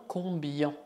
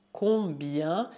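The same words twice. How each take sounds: First: "combien" ending in back nasal "yon"; wrong pronunciation. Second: "combien" ending in front nasal "yan"; correct pronunciation. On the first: Teacher shows the mistake to avoid, "combien" with back nasal ending. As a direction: mispronounce "combien" as "com-byon". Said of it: "e não combien". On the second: Teacher models right word for learners, "combien" with front nasal ending. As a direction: end "combien" like French bien. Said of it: "dizemos combien e não combien". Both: Shown as a demonstration.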